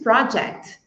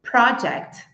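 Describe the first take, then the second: First: The stress is on the first syllable. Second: The same.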